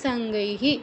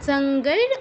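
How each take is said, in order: First: The word ends with an h-i sound. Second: The word ends with an r sound. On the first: The word is said separately from the next word. "বিসর্গ হয়ে ... সঙ্গৈহি হয়ে যাবে" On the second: The word is joined to the next word. "আর যদি একসাথে বলতে চাই সঙ্গৈর"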